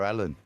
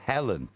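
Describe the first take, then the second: First: The name begins directly with the vowel. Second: The name begins with an audible H sound. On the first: "when I talk about her, it's our Ellen" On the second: "my sister is called Helen"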